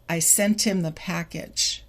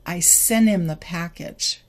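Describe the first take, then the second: First: SENT HIM as "sen-tim", T kept; slower linked form. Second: SENT HIM as "senim", T deleted; faster T-less form. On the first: Teacher contrasts for learners, slower SENT HIM as "sen-tim". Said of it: "a little bit slower". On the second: Teacher contrasts for learners, faster SENT HIM as "senim". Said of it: "A little bit faster". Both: Shown as a demonstration.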